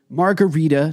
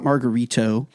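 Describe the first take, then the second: First: "margarita" ending in an "ah"; careful "margarita", final vowel open; correct pronunciation. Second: "margarito" ending in an "oh", lower; lowered "margarito" as the mistaken form; wrong pronunciation. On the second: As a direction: say "margarito" with a final O. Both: Shown as a demonstration. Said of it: "not margarito".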